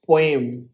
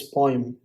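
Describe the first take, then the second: First: "poem" said as PWAY-m; "poem" with an ay before the m; mispronounced poem. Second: "poem" said as POY-m; "poem" with an oy before the m; corrected poem. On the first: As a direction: glide "poem" into an ay sound, pway-m. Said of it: "It's not". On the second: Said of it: "it's poem". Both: Shown as a demonstration.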